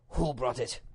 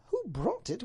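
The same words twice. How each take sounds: First: Plainly pitched demand from the Duke; Duke's question. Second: High lady's echo of a question; pitched-up indignant wife; Duchess's echo. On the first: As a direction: ask it straight, as the husband. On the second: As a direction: throw the question back incredulously. Duchess echoes him indignantly. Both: Acted.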